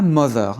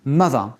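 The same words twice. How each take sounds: First: "mother" wrongly said with an o; wrong mother vowel. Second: "Mother" with an uh vowel; correct mother vowel. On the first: Teacher shows what not to say, "mother" with o. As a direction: say "mother" as MO-ther, sounding the o. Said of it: "Pas mother". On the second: Teacher corrects the error, "Mother" with uh. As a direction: say "Mother" as MUH-thuh. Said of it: "comme si c'était un u". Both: Shown as a demonstration.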